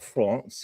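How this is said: It has a French-style pronunciation.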